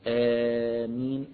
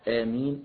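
First: The first vowel is held for four counts. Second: The first vowel is held for two counts. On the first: "أربع حركات" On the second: "حركتين"

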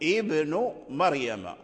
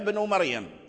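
First: The first word begins with a glottal stop. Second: The first word joins the vowel before it. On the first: The phrase starts fresh after a stop. "لو ابتدأنا بابن نقول ابن مريم" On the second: The phrase continues from the word before. "إذا وصلنا عيسى بابني حذفنا هذا همزة الوصل"

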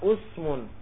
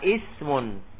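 First: The word begins with a u vowel. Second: The word begins with an i vowel. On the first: This is a rare, weak dialect form. The speaker calls it wrong. "boleh dibaca dhamma usmun, tapi lughatun baifah" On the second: This is the common form. The speaker calls it right. "kebanyakannya dibaca apa? Ismun"

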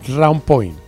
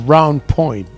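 The two takes are said the same way.

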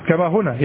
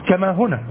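No difference in how they are said.

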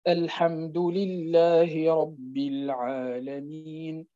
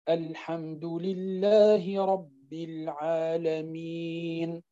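First: The last long vowel is held briefly, two counts. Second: The last long vowel is held for four counts. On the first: "تقراه بالقصر" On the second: "بالتوسط يعني 4 حركات"

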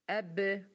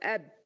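First: The final b is released with a short bounce. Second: The final b is held closed without release. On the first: The speaker calls it right. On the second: The speaker calls it wrong.

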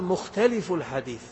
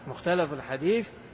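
First: The first word has an i vowel before f. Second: The first word has an a vowel before f.

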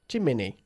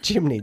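First: The word is said with more than two syllables. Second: The word is said with just two syllables. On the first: The speaker calls it wrong. "¿Y cómo no se pronuncia?" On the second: The speaker calls it right. "dos sílabas, nada más"

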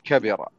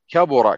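First: The middle vowel is not an 'u' sound. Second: The middle vowel is an 'u' sound. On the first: Something grew larger in size or age. "إذا أردت الذوات قل كبر" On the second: Something became great in significance or meaning. "وإذا أردت المعاني قل كبر"

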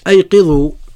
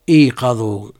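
First: The first vowel is an 'a' sound. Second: The first vowel is an 'i' sound. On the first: It means: wake others up. "بفتح الهمزة" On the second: It means: wake up yourselves. "يجوز كسر الهمزة"

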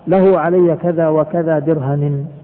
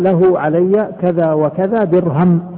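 First: The last word ends with the sound -i. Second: The last word ends with no final vowel. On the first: "بالجر" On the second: "بالسكون يعني وقف عليها"

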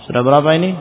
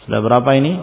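Both takes have the same delivery.

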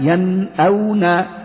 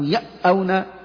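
First: The n sound is pronounced clearly before the glottal stop. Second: The n sound is merged away before the glottal stop. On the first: The speaker calls it right. "فلذلك أظهرنا قلنا ينأونا" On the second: The speaker calls it wrong. "لو قلت يأونا هذا يكون إدغام وهذا لا يصح"

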